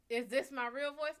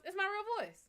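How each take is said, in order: First: Echoing a question put to you. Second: "real voice" pitched high, then falling; emphatic answer. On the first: Retold or imitated. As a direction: ask it back before answering. Repeats a viewer's question before answering. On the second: Real, not acted. Answers the viewer's question emphatically.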